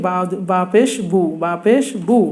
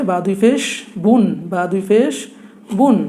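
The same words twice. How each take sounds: First: বু with open oo, no n; single pesh sound. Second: বুন drawn out, closing on n; double pesh sound. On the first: Teacher showing pesh alone to learners, demonstrating বু. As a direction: leave বু open on the vowel. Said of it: "শুধু বা পেশটা উচ্চারণ করি". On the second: Teacher adding another pesh for learners, demonstrating drawn-out বুন. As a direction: lengthen বুন into a clear n. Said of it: "তাহলে কি উচ্চারণ হবে". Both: Shown as a demonstration.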